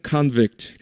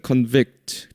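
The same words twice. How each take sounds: First: Convict as KAHN-vict, open first vowel; first-syllable stress. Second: Convict as con-VICT, reduced first vowel; second-syllable stress. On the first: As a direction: hit the front syllable of convict, as a noun. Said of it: "명사일 때는". (convict의 앞 음절 con에 강세) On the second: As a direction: hit the back syllable of convict, as a verb. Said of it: "뒤에 강세가 있습니다". (convict의 뒤 음절 vict에 강세) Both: Shown as a demonstration.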